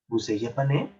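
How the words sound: The pitch rises at the end. It is a question. "son hacia arriba la pronunciación"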